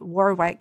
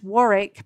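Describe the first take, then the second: First: The middle w sound is pronounced. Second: The middle w sound is silent. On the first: It is the pronunciation used in the States. "here you would say Warwick" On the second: It is the pronunciation used in England. "that's pronounced Warwick, but it's spelled Warwick"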